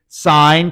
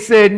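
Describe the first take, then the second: First: The word is said with a long 'eye' vowel. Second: The word is said with a short 'i' vowel. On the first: The speaker calls it right. "You say sine" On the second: The speaker calls it wrong. "We don't say sin"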